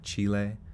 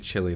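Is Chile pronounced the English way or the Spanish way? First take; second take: Spanish; English. First: The name is said with Spanish pronunciation. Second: The name is said with English pronunciation. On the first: "should I pronounce it like they pronounce it, like Chile?" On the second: "I was gonna just say Chile"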